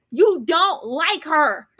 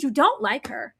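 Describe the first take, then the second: First: Every word of "You don't like her" drawn out slowly; slow, separate weight on "don't like her"; emphatic repeat. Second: Said in the usual way. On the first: Retold or imitated. Telling him the truth, "You don't like her" slow and emphatic.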